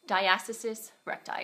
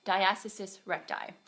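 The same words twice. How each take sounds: First: Talking with a swollen mouth; words thick from a swollen mouth. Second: Swollen mouth, second try. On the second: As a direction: say it again carefully through swelling. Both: Real, not acted. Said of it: "my mouth is swollen with this teeth stuff".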